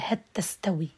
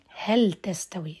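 First: The l merges into the following t. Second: The l is clearly pronounced before the t. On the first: The speaker calls it wrong. "لا لن يقول" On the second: The speaker calls it right. "عنده أيضا الإظهار في موضع الرعد"

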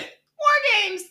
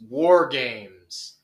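First: It is said loudly and ferociously from the belly. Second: It is said plainly, without much force.

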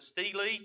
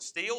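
First: Two syllables with an 'ee' vowel, like steely. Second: One syllable with an 'ee' vowel, like steel. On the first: "some pronounce it steely" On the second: "some pronounce it steel"

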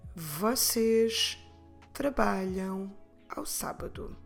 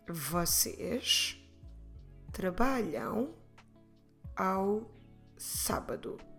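First: It is said a little faster. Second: It is said at a normal pace.

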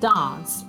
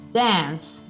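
First: The vowel is a long, open A sound. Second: The vowel is a short, flatter front sound. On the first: "la A in British English" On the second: "In americano, invece, può diventare addirittura una E"

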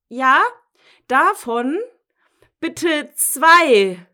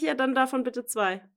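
First: It is said louder, almost shouted. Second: It is said at normal volume.

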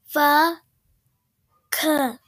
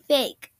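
First: The word is said in a put-on accent. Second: The word is said plainly, without an accent.

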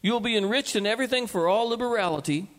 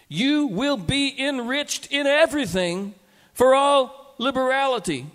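First: It is said fast. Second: It is said slowly.

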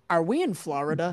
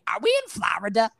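First: It is read flat in a normal voice. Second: It is read in an imitated character voice. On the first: "I will read them very very monotone, very normal voice" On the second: "But now that you know, I will say"

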